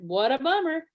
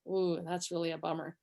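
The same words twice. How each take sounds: First: Unsympathetic. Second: Low, soft, sincere sympathy; empathetic. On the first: Retold or imitated. Wife mimicking her husband's tone back at him, sneering sympathy. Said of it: "But the way you said it". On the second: Shown as a demonstration. Demonstrating to husband how to say it, soft empathy. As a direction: sink into a quiet, gentle commiseration. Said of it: "I wanna say it with empathy".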